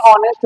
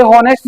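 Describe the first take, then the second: First: ऑनेस्ट starting straight on the vowel; corrected ऑनेस्ट with the h dropped; h silent. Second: हॉनेस्ट with an audible h at the start; the mistaken हॉनेस्ट, opening on h; h sounded. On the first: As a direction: say ऑनेस्ट as "o-nest", no h. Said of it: "ऑनेस्ट होता है". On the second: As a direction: say हॉनेस्ट as "ho-nest", breathing the h. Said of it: "ये हॉनेस्ट नहीं". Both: Shown as a demonstration.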